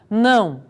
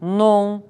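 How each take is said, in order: First: The ending is a standard nasal diphthong. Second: The ending sounds like a plain 'on'. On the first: This is the common Portuguese pronunciation. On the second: This marks a speaker of Italian immigrant origin.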